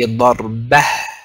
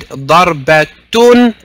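First: The word ends with a breathy h sound. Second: The word ends with the syllable tun. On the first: The speaker stops at the word. "we say darbah" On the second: The speaker carries on without stopping. "instead of what I've just said"

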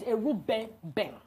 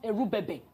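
First: The name is pronounced in its native way. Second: The name is pronounced in a careless, anglicized way. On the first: The speaker calls it right. "My father's name is Erubebe" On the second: The speaker calls it wrong. "you didn't pronounce my father's name very well. My father's name is not Erubebe"

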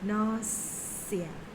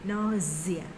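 First: The middle consonant is an s sound. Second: The middle consonant is a z sound. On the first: "ตัวนี้ออกเป็นเสียงตัว s" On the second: "หรือตัว z"

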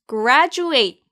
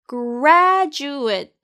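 First: The last syllable sounds like 'at'. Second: The last syllable sounds like 'it'. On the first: The speaker calls it wrong. "아니에요" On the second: The speaker calls it right. "ate가 at이 아닌 it 발음이 나요"

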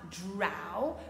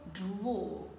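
First: The vowel is an open, unrounded 'ah'. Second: The vowel is a rounded, closer 'aw'. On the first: The speaker calls it wrong. "on ne dira pas draw" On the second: The speaker calls it right. "mais plutôt draw. On ferme la bouche"

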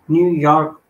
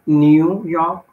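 First: The r sound in York is pronounced. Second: The r sound in York is dropped.

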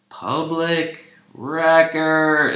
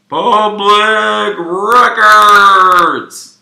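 First: The voice is heard dry, without an echo. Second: The voice is heard with an echo effect.

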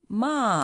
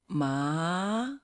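First: The pitch falls sharply from high to low. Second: The pitch rises from mid to high. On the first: "the fourth going down, falling one" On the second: "second one going up"

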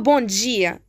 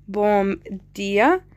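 First: The consonant is a j sound. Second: The consonant is a plain d sound. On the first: "بيقرأوها بونجية هيك" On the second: "اللي بتنكتب هيك بومدية"

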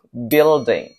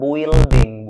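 First: The U is not sounded at all. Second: The U is sounded as a vowel. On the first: The speaker calls it right. "Huruf U nggak usah dibaca" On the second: The speaker calls it wrong. "bukan building"

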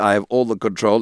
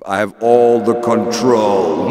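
First: The voice sounds dry, with no added echo. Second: The voice has an added reverb echo effect.

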